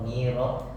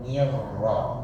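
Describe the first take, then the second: First: The r sound is short and single. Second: The r sound is held and doubled. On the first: The speaker calls it wrong. "bukan niro" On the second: The speaker calls it right. "ditekan di huruf ro"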